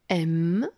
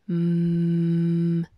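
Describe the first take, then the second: First: The letter is said as its name. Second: The letter is said as its bare sound. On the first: "Il y a le nom de la lettre" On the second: "La lettre M chante ou sonne"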